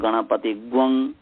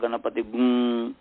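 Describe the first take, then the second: First: The nasal syllable is said as 'gvang'. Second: The nasal syllable is said as 'gung'. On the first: The speaker calls it wrong. "ऐसा मैं ग्वंग भी कहता था" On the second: The speaker calls it right. "इसका गुंग उच्चारण है"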